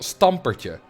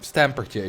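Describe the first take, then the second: First: The name is pronounced with Dutch sounds. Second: The name is pronounced with English sounds. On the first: "in Dutch he's called Stampertje" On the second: "if you pronounce it the English way"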